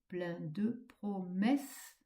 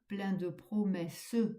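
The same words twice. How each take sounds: First: The final e of promesses is silent. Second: The final e of promesses is pronounced. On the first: The speaker calls it right. "comme si vous enleviez le E à la fin" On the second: The speaker calls it wrong. "Vous ne dites pas ... ce qui ferait cinq pieds"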